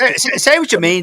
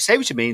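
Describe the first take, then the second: First: High, loud teasing call-out. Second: Said in the usual way. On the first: Real, not acted. Host goading panellist Dave, high loud teasing call. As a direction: egg him on, loud and high.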